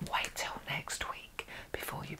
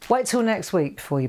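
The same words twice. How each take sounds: First: It is spoken slowly and deliberately. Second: It is spoken at a normal, quick pace.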